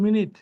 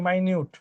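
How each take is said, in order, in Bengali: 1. এটা 'mih' দিয়ে শুরু আর 'nit' দিয়ে শেষ। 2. এটা 'my' দিয়ে শুরু আর 'nyoot' দিয়ে শেষ। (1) "আর আরেকটা উচ্চারণ আছে, এটা হচ্ছে হচ্ছে মিনিট" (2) "এর উচ্চারণ কি? মাইনিউট।"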